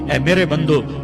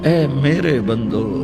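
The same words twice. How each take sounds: First: It is said in a flat, plain tone. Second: It is said in a tender, loving tone. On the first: The speaker calls it wrong. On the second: The speaker calls it right.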